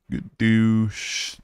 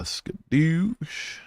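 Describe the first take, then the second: First: Quicker goofy repeat; a second, quicker cartoon skadoosh; quick playful skadoosh. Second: High, slow drawn-out skadoosh; high, slow goofy skadoosh; playful skadoosh. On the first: Repeated catchphrase. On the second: Pretend. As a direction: stretch it out like a cartoon sound. Playful catchphrase exit.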